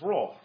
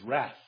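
First: The word has a British English pronunciation. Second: The word has an American English pronunciation. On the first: "That's how English people pronounce it. ... we're English, old boy. It's wrath" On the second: "Americans ... pronounce it phonetically correct, which is wrath"

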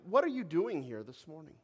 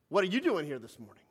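First: The question sounds gentle and reflective. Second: The question sounds accusing and confrontational. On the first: The listener is invited to think about their reasons. The speaker calls it right. "I'm asking the question and calling on you to reflect" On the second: The listener is being challenged for being there. The speaker calls it wrong. "I could say that in a way that might be received a little bit of a different way than I want it to be received"

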